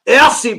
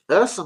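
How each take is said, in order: First: Ursi said the posh way, higher and louder; a mock-refined Ursi; posh pronunciation. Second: Said in the usual way. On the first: Shown as a demonstration. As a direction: put on airs saying Ursi. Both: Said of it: "I'm trying to posh him up".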